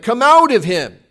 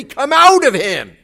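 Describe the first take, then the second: First: A firm command to the demon, raised. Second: Loud, higher commanding order; louder, more authority. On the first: Disciples command the demon, a first firm try. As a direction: order the demon out firmly. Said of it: "They say to this demon something like". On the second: Disciples order the demon again, louder and more commanding. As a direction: demand it with full authority. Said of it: "they say it louder and with more authority". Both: Retold or imitated.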